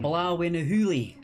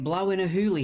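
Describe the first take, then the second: First: It is said in a light Scottish accent. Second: It is said in the speaker's ordinary accent. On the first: "a very yeah, low effort Scottish accent" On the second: "you didn't say it in the Scottish accent"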